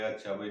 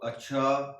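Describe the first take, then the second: First: It is said in a plain, ordinary tone. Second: It is said in a meaningful, suggestive tone.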